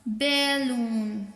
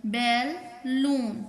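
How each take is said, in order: First: "balloon" slow and joined, lower in pitch; drawn-out word. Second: "balloon" slowly as बै, pause, लून; split into syllables. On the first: Teacher sounding out a word to count, "balloon" slowly joined. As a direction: stretch "balloon" as one unbroken word. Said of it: "कितने syllable में है". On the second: Teacher counting two syllables, "balloon" said in two parts. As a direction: break "balloon" into two separate beats. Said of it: "टू syllable". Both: Shown as a demonstration.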